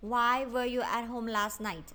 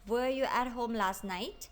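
First: "Why were you at home last night?" with the pitch falling on "night"; falling intonation. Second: "Were you at home last night?" with the pitch swooping up on "night"; rising intonation. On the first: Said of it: "เสียงจะลงเสียงต่ำหมดเลย เช่น". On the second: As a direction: lift "night" sharply into a yes-no question. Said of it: "จะมีเพียงข้อเดียวที่ไม่ใช่ question word". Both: Shown as a demonstration.

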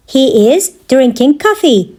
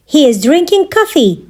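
First: Measured, separated phrases; careful teaching repeat. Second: Said in the usual way. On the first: Shown as a demonstration. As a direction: pause after "He is". Teacher repeats answer for learners.

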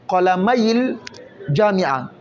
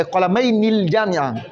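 First: قلمي linked straight into الجامعة, no n; qalamayi-l-jami'a, run together; nun dropped. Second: قلمين with a sounded ni before الجامعة; nun wrongly kept. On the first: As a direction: say قلمي with a short linking i, no nun. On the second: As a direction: keep the n: qalamayni-l-jami'a. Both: Shown as a demonstration. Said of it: "لماذا تأتي بالنون".

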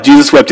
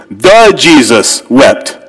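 First: Said in the usual way. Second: "The Jesus wept" said slowly, each word set apart; Greek word order. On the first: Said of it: "In English, just two words". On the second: Shown as a demonstration. Preacher showing the congregation the Greek wording, slow and deliberate. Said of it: "They talk funny in Greek".

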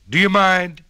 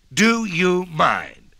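First: Loud, sharp complaint; annoyed donkey. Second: Very slow, drawn-out hee-haw bray; braying donkey. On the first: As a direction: snap at the noisy crowd. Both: A narrator's reading. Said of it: "said the donkey with a he and a haw".

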